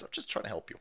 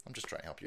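First: Much softer, lower; quiet mock sincerity. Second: Much softer, lower; quieter mock sincerity. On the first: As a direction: say it softly now. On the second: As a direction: nearly mutter it. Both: Real, not acted. Streamer softly repeating his warning to lefties. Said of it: "repeats calmly".

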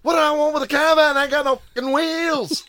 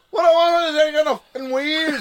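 First: Put-on Irish traveller accent. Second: Put-on high, loud, fast pikey accent; Irish traveller accent. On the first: Snatch quote in Brad Pitt's accent. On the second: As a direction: blurt out the Snatch line in a thick traveller accent. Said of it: "I was just like".

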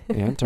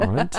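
First: "Aunt" said like "ant"; short-a aunt. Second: "aunt" said as "ahnt"; broad-a aunt. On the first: Asking which pronunciation is used, "Aunt" said like "ant". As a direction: say "Aunt" with the vowel of "cat". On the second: Offering the other pronunciation, "aunt" said as "ahnt". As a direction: say "aunt" with the open vowel of "father". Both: Shown as a demonstration. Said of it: "Do you say aunt or aunt?".

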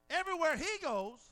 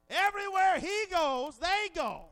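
First: Said in the usual way. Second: Louder, higher repeat; emphatic preaching shout. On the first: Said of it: "repeated for build". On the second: Real, not acted. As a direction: hit it harder the second time. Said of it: "repeated louder".

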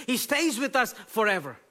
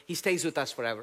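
First: High, loud declaration; ringing emphatic statement; emphatic preaching. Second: Said in the usual way. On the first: Shown as a demonstration. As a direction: proclaim it to the back row.

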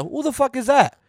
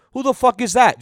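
First: Imitating the kid. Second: Put-on higher, cheeky kid voice; imitating the kid. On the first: Retelling the kid's exact words, cheeky imitation. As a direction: repeat the kid's line just like he said it. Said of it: "Just like that". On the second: The kid asking who truancy officers are, cheeky imitation. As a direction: toss it off like a bratty six-year-old. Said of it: "He goes".

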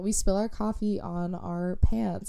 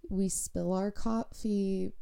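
First: Said in the usual way. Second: Odd slow delivery. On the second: Real, not acted. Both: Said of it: "I don't know why I said it like that".

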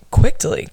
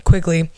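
First: "quickly" with a stray t, like "quick-tly"; mispronounced. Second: Said in the usual way. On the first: Real, not acted. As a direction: stumble on "quickly", slipping a t in after the k. Tongue slip, repeated to correct it.

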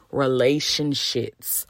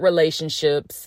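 First: Slow, lower "Relationships" ending in "shits"; punning mispronunciation. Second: Said in the usual way. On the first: Shown as a demonstration. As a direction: spell out "Relationships" as "relation... shits", teacher-style. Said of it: "repeat after me". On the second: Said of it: "they really be relationships".

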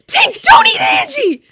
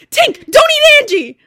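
First: Very high, loud, slow panicked shriek; panicked scream. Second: High, loud, slow panicked yell; retelling friend's panicked yell at dog; panicked scream. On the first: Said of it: "Abby just screams". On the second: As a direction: shout it in panic. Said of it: "the panic in your voice". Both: Retold or imitated.

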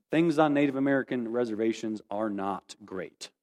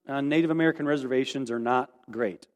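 First: Solemn, deliberate repetition. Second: Said in the usual way. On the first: Real, not acted. Speaker telling listeners about life on reservations, solemn and deliberate. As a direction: let it sink in, measured and low. Repeats the point for solemn emphasis.

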